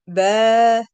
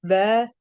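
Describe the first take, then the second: First: Ba with the a stretched to two beats; elongated fatha on ba; long ba. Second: Said in the usual way. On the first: Shown as a demonstration. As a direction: draw out the vowel in ba, louder. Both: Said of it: "You see the difference?".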